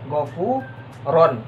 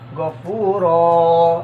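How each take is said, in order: First: The word ends with an n sound. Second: The word ends with a lengthened vowel, no n. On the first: This is how the word is written. "ketulisannya ya" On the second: This is how it is read when stopping at the end. "dibacanya gini, ... hilangkan satu baris ini, ... panjang satu alif"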